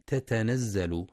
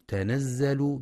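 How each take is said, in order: First: تتنزل with an extra ta, tatanazzal, slowly; wrong reading. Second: تنزل said as the mistaken form, as if with two ta; wrong reading. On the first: Teacher showing students the wrong double-ta reading. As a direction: spell out the wrong تتنزل with two ta sounds. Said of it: "والصواب أنها بتاء واحدة". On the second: Teacher demonstrating a common student error in pronunciation. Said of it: "يخطئ بعض الطلاب فيقرأ". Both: Shown as a demonstration.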